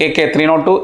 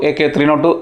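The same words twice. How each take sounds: The two takes are said the same way.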